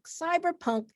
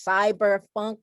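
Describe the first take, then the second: First: Cyberpunk with a clear P in "punk"; P-sound variant. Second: Cyberpunk said as "cyberfunk", with F; F-sound variant. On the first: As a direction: make the P of cyberpunk distinct from an F. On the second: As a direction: put an F in cyberpunk: "cyber-funk". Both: Real, not acted. Two genre names, funk then punk.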